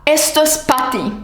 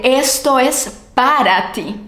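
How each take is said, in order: First: "pa'" for "para" in "Esto es pa' ti"; reduced pa. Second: Both syllables of "para" clear in "Esto es para ti"; full para. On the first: Teacher showing the everyday contraction. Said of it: "decimos pa". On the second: Teacher contrasting with the full form. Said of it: "en lugar de". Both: Shown as a demonstration.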